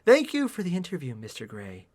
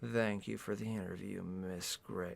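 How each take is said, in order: First: Lightly voiced female character; heroine's voice. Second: Low, very soft suave man; hushed leading-man voice; man's character voice. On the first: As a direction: read it as her, lifted then trailing off. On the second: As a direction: murmur the thanks in a deep hush. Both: A narrator's reading. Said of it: "Oh, that's her speaking!".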